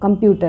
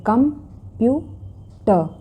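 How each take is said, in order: First: Said in the usual way. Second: कंप्यूटर very slowly as kum... pyu... tuh; syllable by syllable. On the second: Shown as a demonstration. Teacher showing three syllables, each said separately. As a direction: leave a clear gap between the three beats of कंप्यूटर. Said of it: "इसमें तीन syllables हैं".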